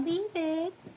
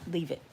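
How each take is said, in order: First: Said in a soft, pleading tone. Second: Said in a firm, commanding tone. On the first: The speaker calls it wrong. "You can't just say, "Aw" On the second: The speaker calls it right. "You have to like"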